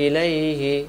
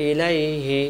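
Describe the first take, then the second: No difference in how they are said.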